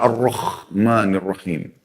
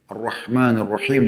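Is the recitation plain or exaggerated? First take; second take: exaggerated; plain. First: The words are recited in an overdone, exaggerated way. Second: The words are recited plainly, without overdoing. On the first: The speaker calls it wrong. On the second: The speaker calls it right.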